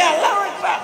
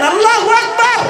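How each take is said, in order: First: Said in the usual way. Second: High, louder crowd-rousing takbir; full-throated group takbir; all together loud. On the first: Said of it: "এ একজনে কে". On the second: Shown as a demonstration. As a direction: shout it out with everyone. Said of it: "সবাই মিলে বলেন".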